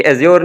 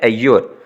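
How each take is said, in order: First: एज्योर with a z sound in the middle; wrong z pronunciation. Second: एयोर with a y glide in the middle; correct y pronunciation. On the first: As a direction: say एज्योर with a buzzed z, not a y glide. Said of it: "ये एज्योर नहीं होता". (एज्योर के बीच में ज़ की आवाज़) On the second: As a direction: say एयोर with y in place of z. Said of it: "बल्कि क्या होता है". (एयोर के बीच में या की आवाज़) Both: Shown as a demonstration.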